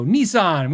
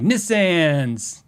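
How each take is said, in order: First: Said in the usual way. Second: "Nissans" said NISS-ans, short i; "Nissans" with a as in can; Canadian-style pronunciation. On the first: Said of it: "walk up to me and Shauna and go". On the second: Retold or imitated. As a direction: answer "Nissans" as NISS-ans, mimicking a friend. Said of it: "we'd be like".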